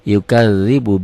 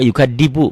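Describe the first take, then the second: First: The middle consonant is a th sound, as in 'this'. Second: The middle consonant is a plain d sound. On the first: The speaker calls it right. "bukan yukadzibu" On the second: The speaker calls it wrong. "Ada juga yukadibu"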